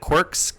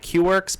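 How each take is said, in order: First: The name is said as one blended word. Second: The letter Q is said, then 'works'. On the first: The speaker calls it right. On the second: The speaker calls it wrong.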